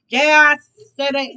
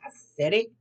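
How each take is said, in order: First: Louder, punching out yeah; loud defiant repeat. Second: Said in the usual way. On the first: Acted. Tarot reader doubling down to her viewers, loud and defiant. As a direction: own it loudly and defiantly.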